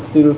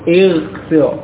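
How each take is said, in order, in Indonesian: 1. Kata ini diawali dengan vokal u. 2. Kata ini diawali dengan vokal i. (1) "bukan ujlis atau ughsil" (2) "maka harokat hamzah wasal juga kasrah"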